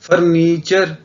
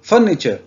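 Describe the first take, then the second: First: A vowel in the word is drawn out long. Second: The vowel in the word is kept short. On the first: The speaker calls it wrong. "फर्नीचर नहीं कहना" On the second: The speaker calls it right. "फर्नीचर आएगी short sound"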